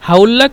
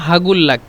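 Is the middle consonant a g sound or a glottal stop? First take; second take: glottal stop; g sound. First: The qaf is said as a glottal stop. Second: The qaf is said as a g sound. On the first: "কফকে দুইভাবে" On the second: "কফকে দুইভাবে"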